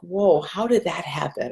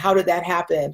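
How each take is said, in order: First: It is asked in a soft, gentle tone. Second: It is asked in an intense, demanding tone.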